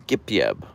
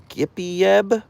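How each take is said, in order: First: "Gippy Ebb" run together as Gip-yeb, falling; hard g on "Gippy Ebb", squeezed into two syllables, dropping at the end; alternative pronunciation. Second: "Gippy Ebb" as separate words, pitched high and rising; trying a pronunciation. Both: Shown as a demonstration. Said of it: "I don't know how to pronounce your name".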